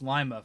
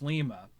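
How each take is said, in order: First: The name is said in the Ohio pronunciation. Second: The name is said in the Peruvian pronunciation. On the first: This is how the town in Ohio is named. "No, it's Lima, folks" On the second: This is how the city in Peru is named. "in Peru it's Lima"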